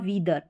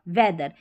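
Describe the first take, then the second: First: The first vowel is a long 'ee' sound. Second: The first vowel is a short 'eh' sound. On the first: The speaker calls it wrong. "इसको सिर्फ बड़ी के रूप में ही याद रखेंगे तो गलत पढ़ेंगे" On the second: The speaker calls it right. "ये वाला ए साउंड आ रहा है"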